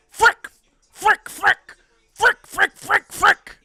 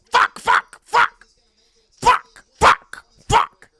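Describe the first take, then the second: First: Very high, squeaky staccato bursts; driver's clean-cursing impersonation. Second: High, squawked curses, one at a time; mock-frantic high yelps in separate bursts; driver cursing impression. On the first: Acted. Driver three points to the bad, frantic squeaky impersonation. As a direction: squawk each mock curse separately, much higher than usual. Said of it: "This is my impersonation of Joey Logano". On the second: Driver four points to the bad, frustrated cursing impression. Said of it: "This is my impression of Joey Logano".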